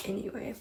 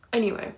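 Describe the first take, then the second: First: Anyway, dropped to a near murmur; a soft trailing-off anyway. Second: Said in the usual way. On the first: Shown as a demonstration. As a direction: let anyway fade out, rising slightly.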